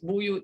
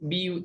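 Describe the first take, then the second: First: The first vowel is a u sound. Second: The first vowel is an i sound. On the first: This is one reading tradition. "yang merah-merah ini semua buyut" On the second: This is another reading tradition. "Semua syu'bah baca biyut"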